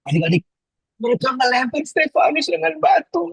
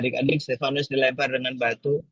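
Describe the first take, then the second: First: It is told with lively expression. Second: It is told in a flat voice.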